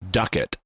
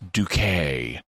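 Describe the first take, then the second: First: The name ends with a clear t sound. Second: The name ends with an open 'ay' vowel. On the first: The speaker calls it wrong. "pronounces her name Ducat" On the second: The speaker calls it right. "oh no, it's Duquet"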